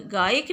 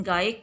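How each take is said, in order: First: गायक as "gaayik", with "i"; wrong pronunciation. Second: गायक as "gaa-yak", with "a"; correct pronunciation. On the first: Teacher showing pupils the mistake, गायक said "gaayik". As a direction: put an "i" before the final k of गायक. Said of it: "गायक नहीं बोलते हैं". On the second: Teacher giving pupils the right word, गायक said "gaayak". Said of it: "गायक के स्थान पे". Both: Shown as a demonstration.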